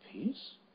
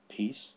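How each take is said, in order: First: The voice rises at the end. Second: The voice falls at the end.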